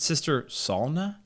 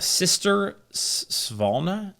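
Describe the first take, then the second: First: The name is said without a V sound. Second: The name is said with a V sound.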